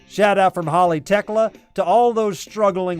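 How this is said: It is read softly in a sincere tone. The speaker calls it right. "I think it's a more sincere uh, shout out"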